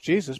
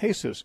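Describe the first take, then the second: First: The name is said the English way. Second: The name is said the Spanish way. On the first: "the English Jesus" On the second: "it's pronounced Jesus"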